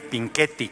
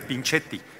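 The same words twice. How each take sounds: First: The middle consonant sounds like k. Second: The middle consonant sounds like ch. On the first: "Cuando se usa la C H suena como nuestra Q U" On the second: "Si estuviera solo la C, sí sería"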